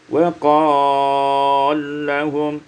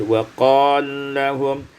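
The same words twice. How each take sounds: First: The stretched vowel is held moderately long. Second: The stretched vowel is held briefly.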